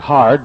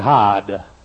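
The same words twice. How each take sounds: First: It is said with the r pronounced. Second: It is said Eastern Yankee style, without r.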